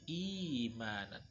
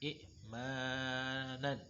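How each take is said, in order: First: The first vowel is lengthened without a stop. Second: A glottal stop follows the first short vowel. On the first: The second hamza is replaced by a long vowel to ease reading. "lebih mudah diucapkan" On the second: This is the original form with two hamzas. "dengan dua hamzah aslinya"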